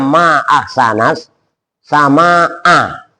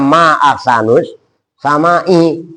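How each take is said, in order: First: The words end with a and a vowels. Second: The words end with u and i vowels. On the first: It exclaims how beautiful the sky is. The speaker calls it right. "Harusnya ngomongnya ma'aksanas sama a" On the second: It asks which star in the sky is most beautiful. The speaker calls it wrong. "Tiba-tiba ngomongnya ma'aksanus sama i"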